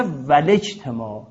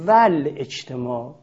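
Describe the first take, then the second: First: ولجتماع with the hamza dropped and a kasra on lam, valejtemā; correct elided reading. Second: ول اجتماع with the hamza kept, val ejtemā, slowly. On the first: Teacher demonstrating the correct reading ولجتماع. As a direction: join ول and جتماع as ولجتماع. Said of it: "این روش خوندن صحیح هست". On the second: Teacher demonstrating the common wrong reading ول اجتماع. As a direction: say ول اجتماع keeping the glottal stop before اجتماع. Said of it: "ول اجتماع غلطه". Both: Shown as a demonstration.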